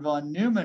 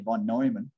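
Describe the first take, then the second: First: The name is pronounced with English sounds. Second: The name is pronounced with German sounds. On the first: "von Neumann is how I would say it" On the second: "until I heard the German guy say"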